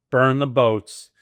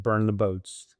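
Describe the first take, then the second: First: Loud, drawn-out battle cry; rallying cry. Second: Said in the usual way. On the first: Retold or imitated. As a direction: declare it slowly and forcefully, like an order. His own battle cry to wife.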